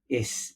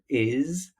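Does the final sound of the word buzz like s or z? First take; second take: s; z. First: The word ends with a hissing s sound. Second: The word ends with a buzzing z sound. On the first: The speaker calls it wrong. "is instead of" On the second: The speaker calls it right. "with a z sound"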